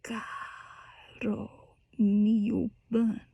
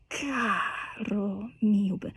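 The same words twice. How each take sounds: First: Very soft, whispered; pianissimo whisper. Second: Soft and slow, carefully placed; soft pianissimo. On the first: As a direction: breathe the words out as pianissimo. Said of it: "when you go into that pianissimo". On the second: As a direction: lay the words down gently and slowly. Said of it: "that pianissimo". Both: Shown as a demonstration.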